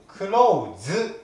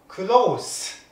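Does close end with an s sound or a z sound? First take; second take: z sound; s sound. First: The final consonant is a voiced z sound. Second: The final consonant is a voiceless s sound. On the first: It is the verb meaning to shut. "濁ります" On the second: It is the adjective meaning near or intimate. "こっちは濁りません"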